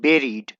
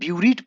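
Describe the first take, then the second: First: The word begins with a 'beh' sound. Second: The word begins with a 'bew' sound. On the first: The speaker calls it right. "इसका verb form होता है बेरीड" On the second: The speaker calls it wrong. "इसे कोई भी ब्यूरीड पढ़ सकता है"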